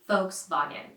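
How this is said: It is said with German sounds, V like F. "say it right with the original pronunciation"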